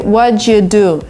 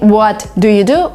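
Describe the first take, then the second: First: The t and d merge into a ch sound. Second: The t and d are pronounced separately. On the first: "So there is a sound ch, which uh, appears in the middle" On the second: "Instead of saying what do you do"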